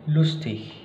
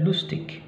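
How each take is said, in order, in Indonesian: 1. Akhirannya bunyi ich yang lembut. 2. Akhirannya bunyi g atau k yang keras. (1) "tapi König, lustig" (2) "bukan lagi König dan lustig"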